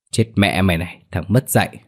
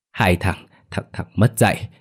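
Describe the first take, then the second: First: Understated angry cursing. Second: Halting, word by word; struggling to speak. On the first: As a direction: swear at him while hitting. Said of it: "kèm theo tiếng chửi". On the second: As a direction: force each word out, as if badly hurt. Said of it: "khó khăn thốt lên từng lời". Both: A narrator's reading.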